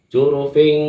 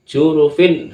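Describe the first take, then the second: First: The word ends with an ng sound. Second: The word ends with a clear n sound. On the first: The speaker calls it wrong. "bukan dibaca jurufing, salah itu" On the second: The speaker calls it right. "yang benar adalah jurufin harin"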